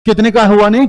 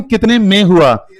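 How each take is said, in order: First: Said in the usual way. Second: Slow, stressing कितने in कितने में हुआ; teacher drawing out कितने में हुआ as the right answer; slow corrected phrase. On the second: Shown as a demonstration. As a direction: spell out कितने में हुआ slowly for the class.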